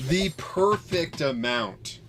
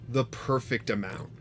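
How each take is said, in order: First: Slow, higher, relishing each word; drawn out with delight; savoring it. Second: Said in the usual way. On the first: Real, not acted. Repeats phrase slowly, higher.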